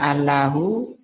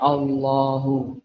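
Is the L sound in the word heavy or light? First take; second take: light; heavy. First: The L is light and thin. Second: The L is heavy and thickened.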